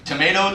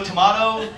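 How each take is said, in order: First: "tomato" said as tuh-MAY-toh; American "tomato", tuh-MAY-toh; first pronunciation. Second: "tomato" said as tuh-MAH-toh; British-style "tomato", tuh-MAH-toh; second pronunciation. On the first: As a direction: say "tomato" with an AY in the middle. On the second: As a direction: say "tomato" with an AH in the middle. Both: Acted. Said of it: "You say vagina".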